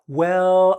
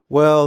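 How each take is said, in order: First: The pitch goes up on the word. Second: The pitch goes down on the word. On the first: The speaker is happy and excited to talk. "My voice goes up and I go" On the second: The speaker wants to end the conversation. "My voice dips down"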